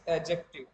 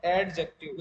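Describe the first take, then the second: First: Adjective said "a-jective", D dropped; silent D. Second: Adjective with an audible D, "ad-jective"; D wrongly sounded. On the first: Teacher gives students the correct form, silent D in adjective. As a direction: glide straight into the J of adjective. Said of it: "डी के बाद जे आता है तो डी silent रहता है". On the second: Teacher warns class against a mispronunciation, hard D in adjective. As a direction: break adjective slowly into "ad" and "jective". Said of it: "It is not adjective". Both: Shown as a demonstration.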